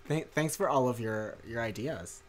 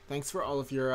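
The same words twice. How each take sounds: First: Said in the usual way. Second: Sarcastic. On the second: Real, not acted. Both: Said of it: "that sounded really sarcastic".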